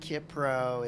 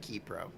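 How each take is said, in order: First: The first syllable has the short vowel 'ih'. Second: The first syllable has the vowel 'ee'. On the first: The speaker calls it wrong. "Is it Kipro?" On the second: The speaker calls it right. "It's actually Keypro"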